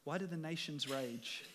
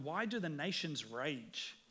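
First: Quieter, chuckling at the nations; a god laughing at an anthill; amused God voice. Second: Plain. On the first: Retold or imitated. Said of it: "God looking down on an anthill". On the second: Shown as a demonstration. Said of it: "It says in verse one".

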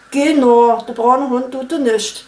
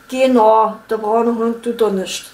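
First: Saxon accent, lips puckered. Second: Saxon accent. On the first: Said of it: "keep your lips puckered for the entire sentence". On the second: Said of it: "Sächsisch". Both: Shown as a demonstration.

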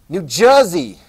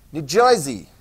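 First: Said in the usual way. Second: "New Jersey" as New Joy-zee in a light Jersey accent; a quick Jersey accent on "Jersey". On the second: Shown as a demonstration. Teacher jokes about how locals say it, light Jersey accent. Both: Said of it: "Do they talk like New Jersey".

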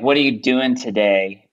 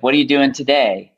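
First: Plain American intonation, dropping at the end; American inflection. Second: American lightly trying British lilt; a little British lilt hanging on the end; British inflection. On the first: Expat showing friends the American way, American inflection. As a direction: say it with a flat-out American accent. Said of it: "in American, be like". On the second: Expat showing his creeping British inflections, British lilt. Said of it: "But in British". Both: Shown as a demonstration.

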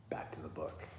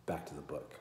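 First: Whispered aside. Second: Said in the usual way. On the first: Shown as a demonstration.

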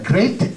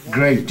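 First: "great" mispronounced with a long EE, GREET; teacher shows the mistake to avoid; wrong pronunciation. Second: "Great" with a clear A-E vowel, GRAYT; teacher models the correct "Great"; correct pronunciation. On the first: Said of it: "Chứ không phải là great". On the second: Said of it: "Thì chữ này đọc là great". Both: Shown as a demonstration.

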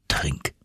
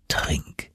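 First: Low, soft single word; hushed "drink"; quiet command. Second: Whispered, low and soft; a breathy whispered "drink"; whispered repeat. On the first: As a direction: say it quietly and firmly. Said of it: "sprach er". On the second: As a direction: whisper the word urgently. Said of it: "wiederholte er". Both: Acted.

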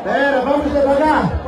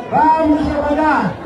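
First: Said in the usual way. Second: Repete "Vamos devagar" bem pausado; devagar, mais lento. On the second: Shown as a demonstration. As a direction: abranda como quem ensina, sílaba a sílaba. (fala devagar para o povo acompanhar)

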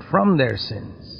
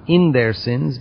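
First: Slow, quieter, weight on "from"; stress on FROM. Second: Slow, deliberate weight on "in"; stress on IN. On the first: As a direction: lean on "from" as the correcting word. Contrasting from with in. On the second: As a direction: lean on "in" to set up a contrast. Contrasting in with from. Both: Shown as a demonstration.

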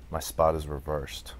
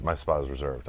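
First: "reversed" read slowly and carefully, the word wrong; misreading. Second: "reserved" read right, with "ser" in the middle; corrected reading. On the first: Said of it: "I don't know why I read reversed". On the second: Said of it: "Oh, reserved". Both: Real, not acted.

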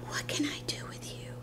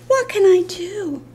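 First: Soft whispered pet talk; hushed fond exasperation. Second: High, playful lament; fond exasperation. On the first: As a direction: whisper it lovingly to the puppy. Repeats it softly to the dog. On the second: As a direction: wail it lightly over the puppy. Mock despair over the dog. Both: Real, not acted.

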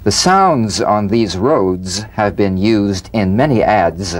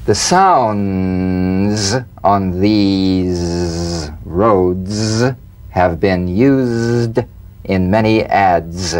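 First: Said in the usual way. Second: Very slow with long pauses between phrases. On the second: Shown as a demonstration. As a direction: linger on each phrase, savoring the z. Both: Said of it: "Feel the z in these sentences".

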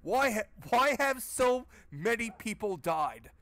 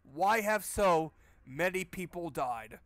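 First: High, slow, dumbfounded mock question; mocking the game hero. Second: Slow, louder disbelieving echo; incredulous repeat. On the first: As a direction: ask it like a clueless hero, drawn out. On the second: Retold or imitated. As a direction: repeat the line, stunned at how dumb it is. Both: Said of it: "He says, in a fucking graveyard".

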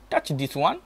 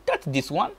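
No difference in how they are said.

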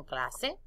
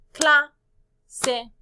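First: Said in the usual way. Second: "Cla, se" in two separate beats, first loud and high; counting out syllables. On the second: Shown as a demonstration. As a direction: punch "Cla", pause, then "se". ("Cla, se" marcando cada sílaba) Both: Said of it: "¿Cuántas sílabas en clase?".

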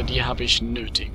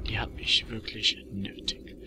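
First: Said in the usual way. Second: Soft breathy whisper. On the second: Real, not acted. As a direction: whisper it to yourself. Repeats line as a whisper.

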